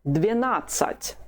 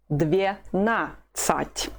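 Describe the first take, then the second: First: Said in the usual way. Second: Dvenasat very slowly, split as dve-na-sat; syllable by syllable. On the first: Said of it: "The whole of it is". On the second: Shown as a demonstration. Teacher models twelve for learners, Dvenasat slowly in separate syllables. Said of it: "The stress is on the second syllable".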